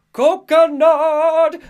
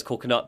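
First: "Coconut" held long, very high and loud. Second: Said in the usual way. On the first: Acted. [name] naming his favorite song, "Coconut" in a long high cry. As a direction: wail "Coconut" high, stretching it right out. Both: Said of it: "that is exactly how he says coconut".

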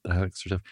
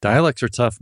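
First: "Dialects are tough" repeated softer, to himself; quiet echo. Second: Dialects said higher and louder, with weight; emphatic. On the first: Echoing his own point to the guest, quiet and musing. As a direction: let it fall away as a musing aside. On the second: Agreeing with the guest about accents, emphatic and louder. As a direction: lean into "Dialects are tough" with feeling. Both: Real, not acted.

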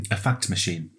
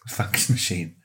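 First: "fact" with a clear k before the t; fact machine. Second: "fax" said with an x, no t; fax machine. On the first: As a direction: say "a fact machine", the k sound crisp. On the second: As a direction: say "A fax machine", fax as one plain word. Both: Shown as a demonstration. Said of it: "Not a fax machine".

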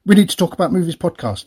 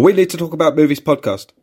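First: Quick, higher run-through of the title; run-together title. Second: Higher-pitched take on the show name; alternative title delivery. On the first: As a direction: rattle off the show name in one breath. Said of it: "You have to say it like that". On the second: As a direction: offer the title back in a raised, put-on voice. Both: Shown as a demonstration.

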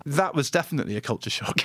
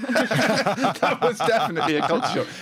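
First: Said in the usual way. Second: Higher, laughing through the words; laughing repeat. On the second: Real, not acted. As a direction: say it again, cracking up.

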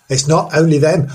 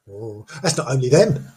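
First: "not" pushed louder with a rising lilt; a spooky teasing emphasis on "not"; stress on not. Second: Said in the usual way. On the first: Shown as a demonstration. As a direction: lean on "not" in "It's not only them". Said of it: "repeat with stress".

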